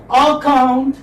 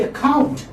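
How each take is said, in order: First: "account" with a full, drawn-out "aa" at the start; mock mispronunciation of "account", stretched opening vowel; wrongly stressed first syllable. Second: "account" with a short unstressed first vowel and stress on "count"; teacher modelling "account", weight on the second syllable. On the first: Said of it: "You don't say like this". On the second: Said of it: "How do you pronounce?". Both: Shown as a demonstration.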